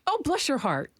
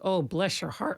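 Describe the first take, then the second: First: It sounds sweet and endearing. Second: It sounds judgmental and pitying.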